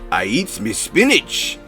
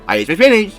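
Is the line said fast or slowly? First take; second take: slowly; fast. First: It is said slowly, in Popeye's voice. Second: It is said very fast, in Popeye's voice.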